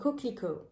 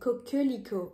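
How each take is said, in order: First: The middle E vowel is dropped entirely. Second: The middle E vowel is clearly pronounced. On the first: The speaker calls it right. "I'm saying coquelicot. We kind of eat the E" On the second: The speaker calls it wrong. "I'm not saying coquelicot"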